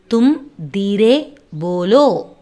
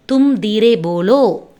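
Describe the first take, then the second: First: Word by word. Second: Said in the usual way. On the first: Shown as a demonstration. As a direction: separate தும், Dheere and polo for a learner. Teacher breaks phrase up for learners.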